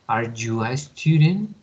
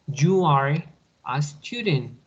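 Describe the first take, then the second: First: Rising question tune on student. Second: Falling statement tune on student. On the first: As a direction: lift "Are you a student?" upward at the end. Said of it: "al inicio va el verbo to be y después el pronombre". (entonación de pregunta, subiendo al final) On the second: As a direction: let "You are a student" fall at the end like a statement. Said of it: "Y al momento de hacer una pregunta". (entonación de afirmación, descendente al final) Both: Shown as a demonstration.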